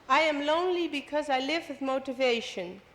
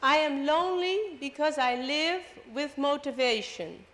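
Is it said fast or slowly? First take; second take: fast; slowly. First: It is said at normal speed. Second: It is said slowly.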